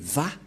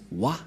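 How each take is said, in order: First: The syllable begins with a V sound. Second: The syllable begins with a W sound. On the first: This is how Jews pronounce it. The speaker calls it right. "mais Va pour les Juifs" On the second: This is how people commonly say it. The speaker calls it wrong. "les gens disent Wa. Mais en fait, ce n'est pas Wa la vraie prononciation"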